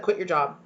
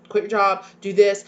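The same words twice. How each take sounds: First: Said in the usual way. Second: Louder, insistent repeat; excited mock shout. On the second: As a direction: push it, like an eager partner insisting. Partner's excited reaction, repeated.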